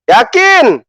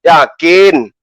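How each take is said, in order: First: "Yakin?" asked higher, as a taunting challenge; mocking yakin. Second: Said in the usual way. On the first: Shown as a demonstration. Host daring his rival Bom Bom, taunting high "Yakin?". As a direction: push "Yakin?" up high as a dare.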